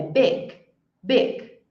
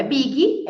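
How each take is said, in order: First: Big as one syllable stopping on g; final G sound. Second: Big wrongly as BEE-ghee; mistaken final vowel. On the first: Teacher correcting students, big ending on G. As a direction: cut big off at the g, no vowel after. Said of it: "Percebam que é som de G". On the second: Teacher showing what not to say, big with added vowel. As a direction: end big on an "ee". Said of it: "Não é big". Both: Shown as a demonstration.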